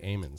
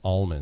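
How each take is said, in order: First: The word sounds like 'amens'. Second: The word sounds like 'almonds'. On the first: This is how the local nut growers say it. "That's how they pronounce the growers of these types of nuts pronounce them" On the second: This is the speaker's own usual pronunciation. "We would call them almonds"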